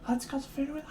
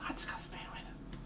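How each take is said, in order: First: Whisper. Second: "let's go to food with" barely breathed, much softer and fading; faint whisper. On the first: Whispered line, then said again. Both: Pretend.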